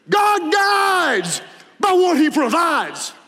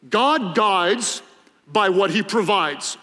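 First: It is said with dramatic, preacher-style flair. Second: It is said plainly, without dramatic flair. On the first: "If you're a really good preacher, you say it like this" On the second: "There's a preacher saying that goes like this"

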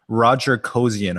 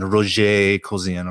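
First: The name is pronounced with an American accent. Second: The name is pronounced with a non-American accent. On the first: "I'm using the American pronunciation" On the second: "not Roger Kosian or whatever it is"

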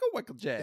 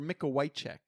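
First: The surname is pronounced the English way. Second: The surname is pronounced the Polish way.

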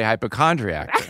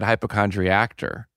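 First: The word ends plainly without an extra syllable. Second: The word ends with an extra 'tor' syllable. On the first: This is how the speaker says it. The speaker calls it right. "When I say hypochondriac" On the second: This is how the other person said it. The speaker calls it wrong. "you said hypochondriac-tor"

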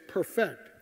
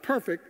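First: The stress is on the second syllable. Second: The stress is on the first syllable. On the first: To restore something to its original condition. The speaker calls it right. "it's perfect. It means to put something back into its original condition" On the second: Without flaw. The speaker calls it wrong. "It's not perfect"

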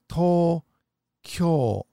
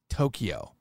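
First: The vowels are held long. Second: The vowels are kept short. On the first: This is how it is said in Japan. The speaker calls it right. "You must have the lengtheners. It's Tokyo" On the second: This is how it is said in America. The speaker calls it wrong. "not Tokyo"

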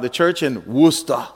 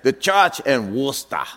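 First: It is said in the speaker's ordinary accent. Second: It is said in a put-on foreign-sounding accent.

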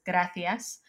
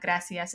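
First: It is said with a Spanish pronunciation. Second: It is said with a non-Spanish pronunciation. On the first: The speaker calls it right. "If you want to say it with like a Spanish pronunciation" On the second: The speaker calls it wrong. "it's not gracias"

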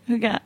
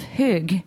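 First: The word is said with one more syllable. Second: The word is said with one syllable fewer. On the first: The speaker calls it right. "One more syllable" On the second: The speaker calls it wrong. "Almost. You're almost there"

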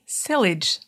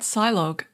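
First: The word ends rhyming with village. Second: The word ends with a log sound. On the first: The speaker calls it right. "It is actually sillage, rhymes with village" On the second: The speaker calls it wrong. "ignore my ignorance at Silog"

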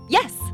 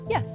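First: It is strong, sudden and forceful. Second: It is light, quick and direct.

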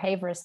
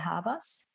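First: The surname is pronounced the English way. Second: The surname is pronounced the German way. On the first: "if you go for Havers, that's totally fine, because I guess more English-speaking people could find me" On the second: "So the German pronunciation would be"

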